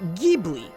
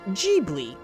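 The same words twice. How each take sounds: First: It begins with a hard G sound. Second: It begins with a soft G sound. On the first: This follows the original Italian word. "pronounced with a hard G" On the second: This follows the Japanese name of the studio. "pronounced with a soft G"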